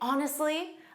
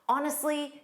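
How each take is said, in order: First: It is said in a calm, sincere tone. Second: It is said in a mildly frustrated tone. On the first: The speaker is simply being truthful. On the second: The speaker is slightly annoyed.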